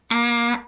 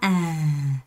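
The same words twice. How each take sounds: First: The pitch stays level throughout. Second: The pitch falls low throughout. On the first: "dấu ngang" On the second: "dấu huyền"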